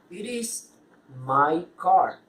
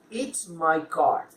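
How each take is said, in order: First: "It is" is said as two full words. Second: "It is" is contracted to one syllable.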